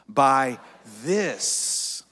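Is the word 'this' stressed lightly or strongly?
strongly. The word 'this' is strongly stressed.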